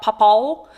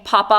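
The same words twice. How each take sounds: First: "papa" with an L on the end, like "pawpaw-l"; Missouri L ending. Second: Said in the usual way. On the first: Shown as a demonstration. Vlogger recalls classmate's word, "papa" ending in L. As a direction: close "papa" on an L sound. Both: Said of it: "put an L on the end of things".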